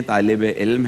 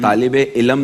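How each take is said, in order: First: طالب علم with علم said as one closed syllable, ilm, no vowel between l and m; correct pronunciation. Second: طالب علم with علم split as i-lam, an extra vowel before the m; wrong pronunciation. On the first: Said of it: "ہے". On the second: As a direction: say علم as two syllables, i-lam, the common mistake. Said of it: "نہیں ہے". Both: Shown as a demonstration.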